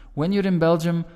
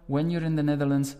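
First: Smooth, connected, singing line; melodic Flemish. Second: Words clipped apart, quick; staccato Dutch. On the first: Teacher shows Flemish melodic flow. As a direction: glue the words together. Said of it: "words are more connected". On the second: Teacher shows Dutch staccato rhythm. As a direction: stop after each word. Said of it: "small stop after each word". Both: Shown as a demonstration.

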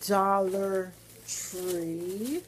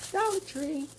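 First: Dollar Tree stretched very slow with a rise; drawn-out announce. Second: Dollar Tree popped up high and quick; high repeat. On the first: Vlogger announcing her next stop, stretched out. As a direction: sing out Dollar Tree slowly. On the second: Vlogger repeating her next stop, higher. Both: Real, not acted.

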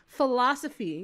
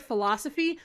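First: "Philosophy." stated with a falling, final tune; flat firm statement. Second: "Philosophy?" asked with a rising, disbelieving tune; incredulous question. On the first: Pressing the word on the commenter, firm fall. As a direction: land "Philosophy." like a verdict. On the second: Pointing at the word for the commenter, disbelieving rise. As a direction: ask "Philosophy?" as if he can't believe it was missed. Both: Shown as a demonstration. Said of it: "Do you not see this word?".

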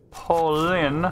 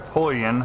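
First: "Pauline" said with a long final "een"; first pronunciation attempt. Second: "Pauline" said with an "oy" vowel, like POY-un; alternative pronunciation attempt. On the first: Unsure of a game character's name, first try at "Pauline". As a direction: say "Pauline" as paw-LEEN. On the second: Offering viewers another guess, "Pauline" sounded as POY-un. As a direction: say "Pauline" with "oy" up front. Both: Shown as a demonstration. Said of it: "I don't know how to pronounce that".

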